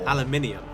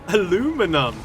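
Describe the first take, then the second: First: It is said in the British way. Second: It is said in the American way. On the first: The speaker calls it right. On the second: The speaker calls it wrong.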